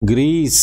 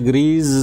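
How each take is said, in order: First: The word ends with an s sound. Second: The word ends with a z sound. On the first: The speaker calls it right. "सा sound है" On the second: The speaker calls it wrong. "ग्रीज बोलते हैं आमतौर पे, that's wrongly pronounced"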